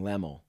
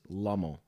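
First: The first vowel sounds like 'eh'. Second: The first vowel sounds like 'uh'. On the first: The speaker calls it wrong. "you always say Logan Lemmel. As if it's like L-E" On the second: The speaker calls it right. "but it is Lummel, like L-O"

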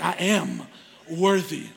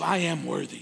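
First: It is said with a sassy attitude. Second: It is said plainly, without attitude.

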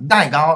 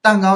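First: It is said in a Zhejiang local accent. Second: It is said in standard Mandarin.

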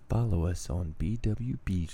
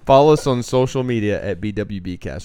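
First: It is said in a put-on sexy voice. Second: It is said in a normal, plain voice.

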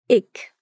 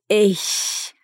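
First: The word ends in a k sound. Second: The word ends in a soft hissing sound. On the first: "Já no Berlinerisch se diz ich, com o som de K no fim da palavra" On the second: "No Hochdeutsch se diz ich, como se fosse um gato bravo"

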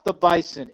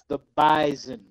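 First: The middle consonant is a hissed s sound. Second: The middle consonant is a buzzed z sound. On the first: The speaker calls it wrong. "Not the Bison" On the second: The speaker calls it right. "It's the Bison. The Z is audible but invisible"

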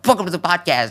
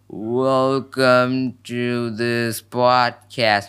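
First: The phrase is spoken at a fast pace. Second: The phrase is spoken at a slow pace. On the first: The speaker calls it right. "I want to be faster" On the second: The speaker calls it wrong. "it's so slow in normal speed"

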